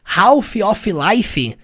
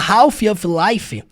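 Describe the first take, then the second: Both takes have the same delivery.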